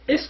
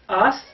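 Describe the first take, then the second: First: The vowel is a close 'i' sound. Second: The vowel is an open 'a' sound. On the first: It refers to a place like a bathroom. The speaker calls it wrong. "don't read it like we say ist" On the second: It means 'is'. The speaker calls it right. "If you read it like ast"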